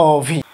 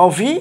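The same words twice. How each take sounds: First: অভি with drawn-out closed "o", "o-bhi"; as pronounced. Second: অভি with open first vowel, "aw-bhi"; as written. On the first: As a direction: round and hold the first vowel of অভি. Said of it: "সেটা উচ্চারণ হবে অভি". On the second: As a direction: read অভি as spelt. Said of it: "সেটা উচ্চারণ হবে". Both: Shown as a demonstration.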